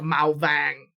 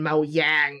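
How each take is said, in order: First: The second word starts with a V sound. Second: The second word starts with a Y sound. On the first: "That's that's north" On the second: "but then Mao Yang is south"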